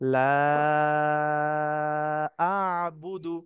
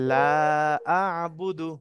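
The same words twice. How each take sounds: First: The vowel in 'la' is stretched out long. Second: The vowel in 'la' is held only briefly. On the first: The speaker calls it right. "তিন আলিফ পরিমাণ মত করতে হবে" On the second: The speaker calls it wrong. "হয়নি"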